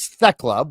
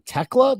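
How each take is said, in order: First: The name begins with a TH sound. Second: The name begins with a plain T sound. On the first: The speaker calls it wrong. "I thought it was Thekla" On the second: The speaker calls it right. "you don't pronounce the T H, you just pronounce the T"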